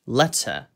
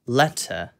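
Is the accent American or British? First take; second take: British; British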